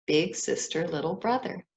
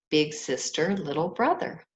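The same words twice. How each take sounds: The two takes are said the same way.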